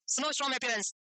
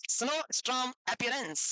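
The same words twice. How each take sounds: First: Said in the usual way. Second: "snowstorm appearance" drawn out, word by word; slow dictation. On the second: Shown as a demonstration. Repeats term slowly for writing down. ("snowstorm appearance" धीरे-धीरे, खींचकर लिखवाते हुए)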